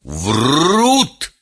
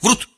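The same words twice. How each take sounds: First: The vowel is drawn out long. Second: The vowel is short and quick. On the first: The speaker calls it right. "произнес длинно, долго" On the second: The speaker calls it wrong. "мог бы сказать"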